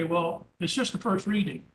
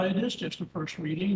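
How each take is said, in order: First: Said in the usual way. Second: Is pushed up in a rising tone; stress on is. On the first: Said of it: "some will say". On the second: Shown as a demonstration. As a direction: lean on the word is. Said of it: "Well, yeah".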